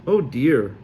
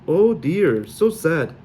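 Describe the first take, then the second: First: Said in the usual way. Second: Louder, higher fake Sully lament; hammed-up Sully pity; exaggerated Sully-accented dismay; mock sorrow. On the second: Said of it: "My accent was even worse than Mal's".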